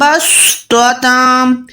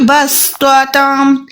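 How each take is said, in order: First: The s sound is heavy and thick. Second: The s sound is light and thin. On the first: The speaker calls it wrong. "آپ ایسے نہ پڑھیں" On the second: The speaker calls it right. "سین کو میں باریک پڑھ رہی ہوں"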